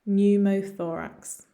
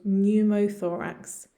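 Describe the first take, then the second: Both takes have the same delivery.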